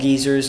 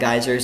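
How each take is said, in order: First: It uses the overseas regional pronunciation. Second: It uses the speaker's home regional pronunciation. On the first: This is how people far away say it. "on the other side of the world they call it geezers" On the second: This is how the speaker's region says it. "not geysers"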